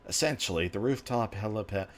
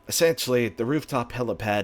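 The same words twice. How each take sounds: First: It is read in a natural, everyday voice. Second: It is read in a put-on character voice. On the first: The speaker calls it wrong. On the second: The speaker calls it right.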